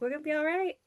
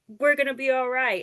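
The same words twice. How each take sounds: First: It ends with a rising, questioning tune. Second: It ends with a firm falling tune.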